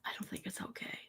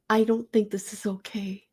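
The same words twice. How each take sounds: First: A hushed, unvoiced repeat; a whispered aside in disbelief. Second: Said in the usual way. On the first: Real, not acted. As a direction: whisper it to yourself, appalled. Repeated line, now whispered.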